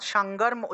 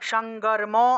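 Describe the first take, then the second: First: The word ends on a bare m sound. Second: The word ends with a vowel after m. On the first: The speaker calls it right. "অর্থাৎ সাঙ্গর্ম উচ্চারণ করব।" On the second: The speaker calls it wrong. "এইভাবে উচ্চারণ করা যাবে না"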